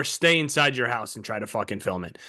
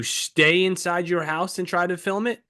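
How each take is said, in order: First: Lower, closing fall on "fucking film it"; falling second option. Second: "film it" lifted at the end, left open; rising first option. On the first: Friend repeating the only approach, falling on "fucking film it". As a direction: land "fucking film it" as the only choice, low. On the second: Friend laying out two approaches, rising on "film it". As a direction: offer it as the first choice, "it" rising. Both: Shown as a demonstration.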